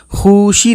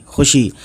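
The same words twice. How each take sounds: First: "खुशी" as khoo-shee, first vowel long and raised; wrong long vowel. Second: "खुशी" with a short first vowel, khushi. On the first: Teacher showing what not to read, long vowel. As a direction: stretch खुशी high on khoo as a misreading. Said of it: "खुशी नहीं पढ़ेंगे". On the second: Teacher showing how it is read, short vowel. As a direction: keep the u of खुशी brief. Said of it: "वाव को इस तरह से नहीं मिलाएंगे". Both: Shown as a demonstration.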